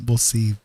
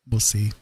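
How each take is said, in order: Both takes have the same delivery.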